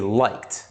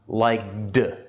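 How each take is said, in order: First: The ending is pronounced as a t sound. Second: The ending is pronounced without a t sound. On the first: The speaker calls it right. "why did I say liked?" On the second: The speaker calls it wrong. "Why not liked?"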